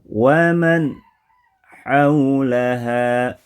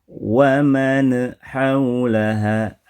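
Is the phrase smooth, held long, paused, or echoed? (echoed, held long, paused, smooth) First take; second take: paused; echoed. First: A pause breaks the phrase after the nasal. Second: The nasal sound has a bouncing echo added. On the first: "ada jeda" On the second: "ada pantulan"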